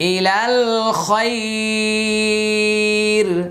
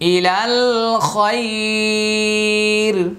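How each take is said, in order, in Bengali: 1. এখানে ওয়াকফ হয় এবং শেষের স্বরটি টানা হয়। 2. এখানে ওয়াকফ হয় এবং শেষের স্বরটি টানা হয়।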